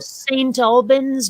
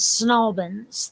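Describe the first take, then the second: First: Every syllable of the name is said fully. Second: The syllables are squashed together into fewer sounds.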